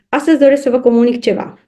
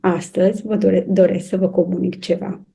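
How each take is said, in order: First: It is said hesitantly and hurriedly, without confidence. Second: It is said in a low, deep, self-assured voice. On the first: The speaker lacks courage and does not own the message. The speaker calls it wrong. "nici măcar nu are curajul... ar vrea să treacă cât mai repede" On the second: The speaker owns the message and feels at ease. The speaker calls it right. "o voce joasă, profundă, care denotă siguranță de sine"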